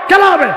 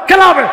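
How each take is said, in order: No difference in how they are said.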